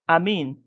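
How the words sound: The pitch drops low at the end. The word ends the utterance. "utterance finally there is an additional low tone, low boundary tone"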